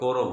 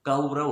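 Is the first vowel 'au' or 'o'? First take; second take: o; au. First: The first vowel is a plain 'o'. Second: The first vowel is the diphthong 'au'. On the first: The speaker calls it wrong. "और कौरव बोल देते हैं सीधे" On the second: The speaker calls it right. "कौरव होता है ये"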